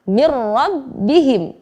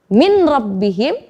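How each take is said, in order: First: The n sound merges into a doubled r. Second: The n sound is pronounced before the r.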